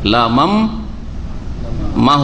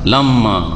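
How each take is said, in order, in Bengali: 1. m ধ্বনিটি শেষের ma-র আগে আসে। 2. m ধ্বনিগুলো মিশে একটি দীর্ঘ m হয়ে যায়। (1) "নুনটাকে যদি মিম করে দেওয়া হয় তাহলে কি হয়ে যাবে উচ্চারণ?" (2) "একটা মিমকে হজফ করে দেন"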